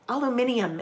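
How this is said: The word is said with five syllables. "they call it aluminium"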